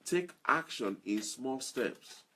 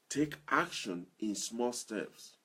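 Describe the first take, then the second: No difference in how they are said.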